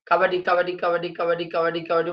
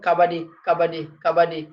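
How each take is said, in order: First: All repetitions run together in one breath. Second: Breaths are taken between the repeated words. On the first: "মানে একদমে" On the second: "এভাবে বলতে, বলতে যখন নিঃশ্বাস নিবেন"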